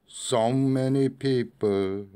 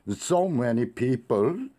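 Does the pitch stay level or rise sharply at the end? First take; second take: level; rises sharply. First: The pitch does not drop at the end. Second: The pitch jumps up sharply at the end. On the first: "안 떨어지겠죠?" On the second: "끝을 팍 올리겠죠?"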